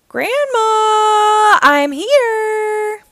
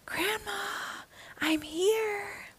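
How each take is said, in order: First: It is said aloud, not whispered. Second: It is said in a whisper.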